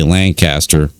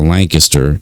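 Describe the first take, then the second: First: Lancaster with a full "caster", LAN-CAST-er; Lancaster as spelt, LAN-caster; outsider's pronunciation. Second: Lancaster slurred to LANK-iss-ter; weak middle vowel in Lancaster, LANK-uh-ster; local pronunciation. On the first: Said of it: "if you say Lancaster". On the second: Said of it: "instead of Lancaster". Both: Shown as a demonstration.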